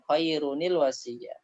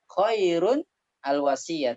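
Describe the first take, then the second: First: The words run together with a linking 'nil' sound. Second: There is a stop after 'khairun' with no link. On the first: The reading continues without stopping. "dikasih huruf nun barisnya kasrah agar lebih enak diucapkan" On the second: The reader stops after the first word. "kalau kita mau berhenti"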